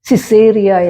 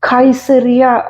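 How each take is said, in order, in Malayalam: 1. ആദ്യത്തെ വ്യഞ്ജനം s ശബ്ദമാണ്. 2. ആദ്യത്തെ വ്യഞ്ജനം k ശബ്ദമാണ്.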